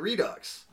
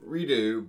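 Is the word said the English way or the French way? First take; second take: English; French. First: It is said the English way, ending in a ks sound. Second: It is said the French way, ending in an oo vowel. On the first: "they say Redux" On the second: "in French it'd be like redo"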